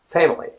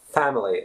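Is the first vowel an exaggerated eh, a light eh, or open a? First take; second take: light eh; open a. First: The first vowel is a light, relaxed eh. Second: The first vowel is an open a sound. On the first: The speaker calls it right. "but it's family" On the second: The speaker calls it wrong. "It's not family at all. It's what we foreigners would be probably more used to because the British pronunciation has the a sound"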